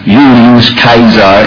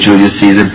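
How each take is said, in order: First: The name is pronounced in a classical Latin way. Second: The name is pronounced in an English way. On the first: "make a few Latin purists in the audience happy" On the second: "tainted by English phonetics"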